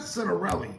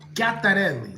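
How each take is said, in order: First: The name opens with a plain English-style sound. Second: The name opens with an Italian-style sound. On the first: The speaker calls it wrong. "It's not Citarelli" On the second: The speaker calls it right. "That's how you say it in Italian"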